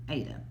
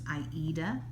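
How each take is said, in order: First: It is said in a third, different way. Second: It is said like the opera's title. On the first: Some other people say it this way. "some of us pronounce it" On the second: It follows the opera the fabric is named after. "the correct pronunciation is the way that Jean pronounces it"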